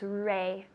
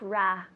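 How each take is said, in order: First: The vowel is a gliding 'ay' sound. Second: The vowel is an open 'ah' sound. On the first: The speaker calls it right. "It's ray" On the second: The speaker calls it wrong. "It's not ra"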